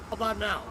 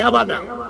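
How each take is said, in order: First: The voice is faint and mumbled, barely audible. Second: The voice is clear and easily heard. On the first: The speaker calls it wrong. "Now I can't hear you at all. Now you're just mumbling" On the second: The speaker calls it right. "That's perfect for me"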